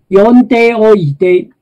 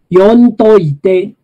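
First: The full form with "deoite" is pronounced. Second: The contracted form merges into "doite".

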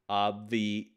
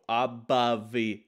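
First: The b runs straight into the v sound. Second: An extra vowel separates the b and v sounds. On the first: The speaker calls it right. "What you have to do is go straight from the b sound to the v sound without breaking your voice" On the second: The speaker calls it wrong. "the mistake would be to go abavi and go and make a ba sound. That would be a mistake"

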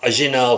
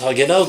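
First: The word begins directly with a vowel. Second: The word begins with an h sound. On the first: This is how a French speaker says the town name. "Agenau falan der" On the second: This is how locals name the town, not the French. "Ya Fransız Hagenau da demez"

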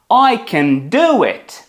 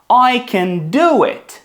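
First: The stress falls on the word do. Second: The same.

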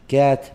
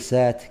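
First: The word begins with a k sound. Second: The word begins with an s sound. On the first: The speaker calls it right. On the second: The speaker calls it wrong.

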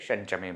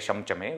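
First: The nasal before 'chame' is an n sound. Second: The nasal before 'chame' is an m sound. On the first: The speaker calls it right. "we say Shanchame" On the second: The speaker calls it wrong. "we don't say Shamchame"

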